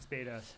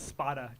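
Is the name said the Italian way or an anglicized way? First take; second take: anglicized; Italian. First: The name is said with English-style vowels. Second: The name is said with Italian-style vowels. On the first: The speaker calls it wrong. "It's not Spada" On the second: The speaker calls it right. "it's Spada"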